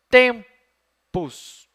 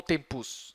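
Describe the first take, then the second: First: "Tempus" split, loud high TEM, then PUS; stress on first syllable. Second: "tempus" softer, with the weight moved to PUS; wrong final stress. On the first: Teacher weighing which syllable is tonic, first one stressed. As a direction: punch TEM and pause before the end of "Tempus". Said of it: "tem que ser a penúltima". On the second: Teacher offering the wrong alternative, last syllable stressed. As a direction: shift the stress to the end of "tempus". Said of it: "Essa não pode ser". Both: Shown as a demonstration.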